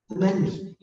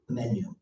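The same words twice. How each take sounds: First: "The menu" said again, higher and louder; emphatic repeat. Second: Said in the usual way. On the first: Shown as a demonstration. Teacher repeating the answer to the class, higher and louder. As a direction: punch "menu" the second time as the punchline.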